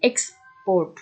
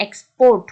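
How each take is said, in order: First: export split, with "EX" stressed and "port" falling; stress on first syllable. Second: Verb export with a loud, punched "PORT"; export, second syllable driven home loudly; stress on last syllable. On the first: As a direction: hit EX in export, then ease off. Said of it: "এক্সটাকে আপনি একটু জোর দিচ্ছেন". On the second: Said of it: "পোর্টের উপরে গিয়ে সেখানে একটা stress". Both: Shown as a demonstration.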